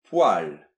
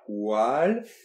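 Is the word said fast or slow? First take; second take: fast; slow. First: The word is said a bit faster. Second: The word is said slowly and carefully.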